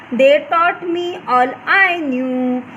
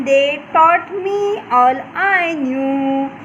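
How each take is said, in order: The two takes are said the same way.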